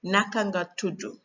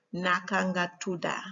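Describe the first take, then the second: First: Senegalese-accented Wolof, tudu ending in "oo". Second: Gambian-accented Wolof, tuda ending in "ah". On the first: Teacher showing how to ask a name, Senegalese accent. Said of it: "in Senegalese accent". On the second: Teacher showing how to ask a name, Gambian accent. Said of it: "Whereas in Gambian accent". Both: Shown as a demonstration.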